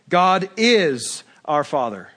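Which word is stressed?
is. The word is is stressed.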